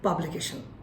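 It is said with flat Bengali-style pitch. The speaker calls it wrong. "বাংলা tone দিয়ে"

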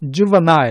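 It is said with a British pronunciation. "영국에서는 juvenile 이렇게 읽어주는데"

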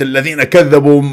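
It is said with strong, enthusiastic emphasis. The speaker calls it wrong. "عندك حماس بالآية"

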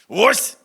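The word is shouted hard with an abrupt ending. It sounds like a samurai's dying cry. "західноукраїнського твердого «ось», яке звучить як останнє, що вигукує самурай"

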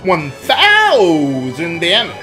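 It is said in a game-show announcer voice.

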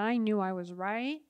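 The voice rises at the end. The speaker calls it wrong.

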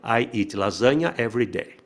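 The pitch stays flat across 'lasagna'. The speaker calls it wrong. "Não pode ser flat assim"

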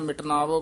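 The two words are run together. The speaker calls it wrong. "ਇਕੱਠਾ ਨਹੀਂ ਕਹਿ ਦੇਣਾ"

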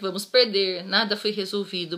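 There is a pause right after 'perder'. We are going to lose; nothing was solved. "A vírgula depois do perder significa que nós vamos perder"

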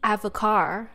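Early words are rushed; car is loud. "rush through the first three words and just say the word car loud and clear"

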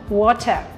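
It is said with a British accent.

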